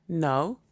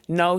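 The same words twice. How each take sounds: First: A dull, understated no; NO at an everyday pitch, little feeling. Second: NO hit hard and loud; a loud, firm stress on NO; emphatic. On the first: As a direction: say NO dully, without any push. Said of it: "he said dully". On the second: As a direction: punch the word NO. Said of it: "he said emphatically". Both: A narrator's reading.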